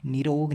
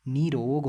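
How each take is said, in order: First: Short "ni" opening निरोग; wrong short first vowel. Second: Long "nee" opening निरोग; long first vowel. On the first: Teacher rejecting the wrong spelling, short first vowel. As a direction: keep the first i of निरोग brief, ni-ROG. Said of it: "निरोग नहीं होता". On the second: Teacher giving the correct spelling, long first vowel. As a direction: stretch the ee in निरोग, NEE-rog. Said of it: "निरोग होता है". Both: Shown as a demonstration.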